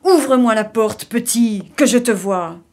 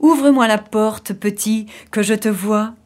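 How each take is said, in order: First: Mildly thunderous wolf's command; big bad wolf demanding entry, a touch thunderous; thundering voice. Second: Lightly voiced hungry wolf, coaxing at the door; understated greedy wolf call. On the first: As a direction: boom it out at the door, without quite shouting. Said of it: "d'une voix tonitruante". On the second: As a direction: coax the little one as if licking your chops. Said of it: "en se léchant les babines". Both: A narrator's reading.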